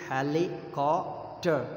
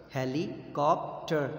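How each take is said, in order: First: Slow, "helicopter" broken into its syllables; split into syllables. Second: Said in the usual way. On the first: Shown as a demonstration. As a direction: chop helicopter into its parts, slowly. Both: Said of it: "So syllabic division".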